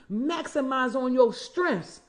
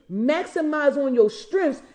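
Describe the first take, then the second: First: Said in the usual way. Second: "Maximize on your strengths" slower and louder, leaning on "strengths" with a rise; emphatic repeat. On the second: Shown as a demonstration. Urging her audience, a firmer emphatic repeat. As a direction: drive it home the second time. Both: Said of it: "I'm gonna say it again".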